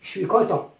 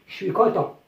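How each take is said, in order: First: Je suis is squeezed into chuis, with a sh sound. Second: Je suis is squeezed into chuis, with a sh sound.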